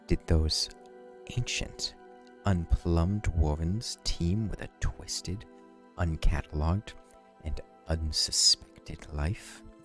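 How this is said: It is read in a soft, seductive voice.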